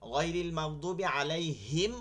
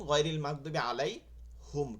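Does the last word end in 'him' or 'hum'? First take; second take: him; hum. First: The last word ends with the sound 'him'. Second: The last word ends with the sound 'hum'. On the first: "হিম" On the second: "হুম"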